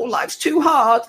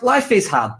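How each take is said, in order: First: It is said in a whiny put-on voice. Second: It is said in his normal voice.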